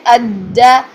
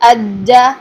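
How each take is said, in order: The two takes are said the same way.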